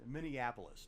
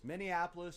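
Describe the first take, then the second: First: Said in the usual way. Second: Minneapolis punched out louder and higher. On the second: Shown as a demonstration. Revealing the city to the co-host, louder.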